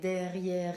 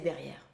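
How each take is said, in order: First: The final e is sounded as a vowel. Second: The final e is silent. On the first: The speaker calls it wrong. "it's double R, final E, but you do not say derrière" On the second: The speaker calls it right. "just say derrière"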